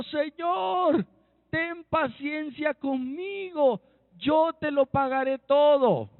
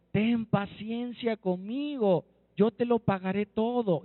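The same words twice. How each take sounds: First: High, drawn-out begging cry; pleading. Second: Understated plea at everyday pitch; mild pleading. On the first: Servant begs his lord for patience over a debt, pleading. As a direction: plead slowly with the voice raised high. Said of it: "Postrado le suplicaba diciendo". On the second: Fellow servant begs for patience at his feet, understated plea. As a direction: beg gently, with little change of voice. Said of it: "Le rogó diciendo". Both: Acted.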